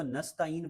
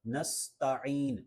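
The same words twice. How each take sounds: First: Quick "نستعین" as nasta-een, plain vowel; wrong ain. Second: Drawn-out "نستعین" with throaty ain; correct ain. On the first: Teacher shows the mistake, "نستعین" lacking ain. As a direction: say "نستعین" Urdu-style without ain. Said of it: "پڑھنا یہ صحیح نہیں ہے". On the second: Teacher models the correction, "نستعین" with Arabic ain. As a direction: sound the ain clearly in "نستعین". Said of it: "بلکہ درست تلفظ ہے". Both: Shown as a demonstration.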